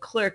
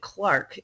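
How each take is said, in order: First: The vowel sounds like the one in 'her'. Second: The vowel sounds like the one in 'car'.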